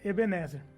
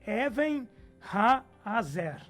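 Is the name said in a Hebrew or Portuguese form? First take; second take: Portuguese; Hebrew. First: The name is said in its Portuguese form. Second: The name is said in its Hebrew form. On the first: It is an approximation in the local language. The speaker calls it wrong. "de Ebenezer" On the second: It is the original pronunciation. The speaker calls it right. "na pronúncia correta é"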